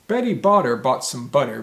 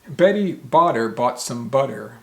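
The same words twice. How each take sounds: First: It is said at a quicker, rushed pace. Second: It is said at a slower, careful pace.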